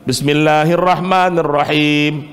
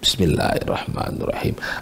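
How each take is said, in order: First: It is recited aloud. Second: It is recited quietly, under the breath.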